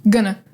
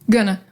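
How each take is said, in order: The two takes are said the same way.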